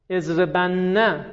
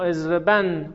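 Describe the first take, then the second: First: First "اضربن" as ezrebanna, doubled n and final "a"; slow "اضربن", opening out onto -na; heavy emphatic nun. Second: Second "اضربن" as ezreban, closed on the n; light emphatic nun. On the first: Teacher asking whether the forms differ, "اضربن" as ezreban-na. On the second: Teacher contrasting the light form in a question, "اضربن" as ezreban. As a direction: end "اضربن" on a single n, no vowel. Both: Shown as a demonstration. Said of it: "آیا بین نون تأکید ثقیله و خفیفه".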